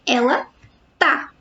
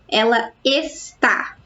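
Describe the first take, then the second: First: The verb's first syllable is cut off. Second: The verb is said in full, two syllables.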